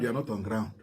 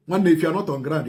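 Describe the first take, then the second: First: Drops soft to drive the point home; dropped quiet repeat. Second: Said in the usual way. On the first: Real, not acted. Commentator telling Ikenga Uruagu he lacks facts, softer repeat. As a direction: repeats it quietly as a knowing aside.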